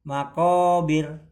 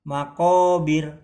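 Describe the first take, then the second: No difference in how they are said.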